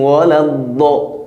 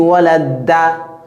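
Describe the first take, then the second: First: The consonant is heavy, with a dark 'do' sound. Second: The consonant is light, with a plain 'da' sound. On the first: The speaker calls it right. "Da, Do" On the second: The speaker calls it wrong. "quand tu dis walad-da, tu as raté"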